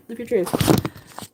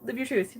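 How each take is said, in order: First: Slow, drawn-out "live your truth"; slow emphatic repeat. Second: Soft, offhand "live your truth"; quiet reassurance. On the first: Encouraging a chatter, slow and drawn-out. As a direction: stretch each word for emphasis. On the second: Telling a chatter it's okay, quietly. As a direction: say it softly, in passing. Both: Real, not acted.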